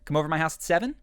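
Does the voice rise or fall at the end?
rise. The voice rises at the end.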